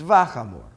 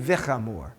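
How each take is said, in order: First: The first syllable has an 'a' vowel. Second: The first syllable has an 'i' vowel. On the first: The speaker calls it right. "it's vachamur, because it just it flows that way" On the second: The speaker calls it wrong. "It's not going to be vichamur"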